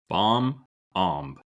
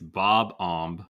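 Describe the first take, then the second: First: The first part sounds like 'bomb'. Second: The first part sounds like 'bob'. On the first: The speaker calls it wrong. "I might be wrong" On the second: The speaker calls it right. "I think you're right. I think it's Bob Omb"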